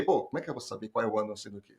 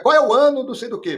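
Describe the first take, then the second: First: Fast, lower mock complaint; hurried, dropped-voice protest; stumped candidate. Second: High, loud mock quiz question; raised-pitch, punched-out question; test question. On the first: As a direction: grumble it quickly, as if the question is absurd. Acting out the stumped candidate's reply. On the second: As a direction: fire it out like an examiner testing someone. Acting out a very specific test question.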